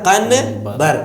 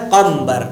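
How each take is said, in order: First: قنبر split "qan-bar", clear N; written with N. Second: قمبر as "qamm-bar", held M; read with M. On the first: Teacher showing the spelling, قنبر as "qan-bar". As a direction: sound the N in قنبر. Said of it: "لیکن لکھا جاتا ہے". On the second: Teacher showing pronunciation, قمبر with M for N. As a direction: lips closed humming M in قمبر. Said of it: "لیکن پڑھا جاتا ہے". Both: Shown as a demonstration.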